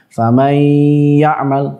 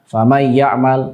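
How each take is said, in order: First: The nasal sound is held and lengthened. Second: The nasal sound is short, not held. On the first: The speaker calls it right. "harusnya dibaca dengan ditahan gunnahnya" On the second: The speaker calls it wrong. "justru dibaca dengan tanpa gunnah"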